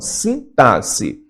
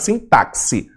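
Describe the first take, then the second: First: The x is pronounced as s. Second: The x is pronounced as ks. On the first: The speaker calls it right. "Não, sintaxe" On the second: The speaker calls it wrong. "pronuncia direito, não é nada de sintaxe"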